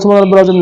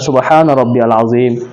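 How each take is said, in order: First: It is said fast and rushed. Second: It is said slowly and carefully.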